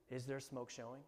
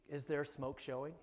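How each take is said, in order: First: Asked again, much softer; softer repeat. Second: Said in the usual way. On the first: Shown as a demonstration. Preacher repeating the question to the congregation, quiet and soft. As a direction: let the question sink in quietly.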